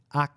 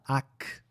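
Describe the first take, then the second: First: The final k sound is held, not released. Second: The final k sound is clearly released. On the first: The speaker calls it right. "O som fica mais preso" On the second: The speaker calls it wrong. "A gente não fala AK"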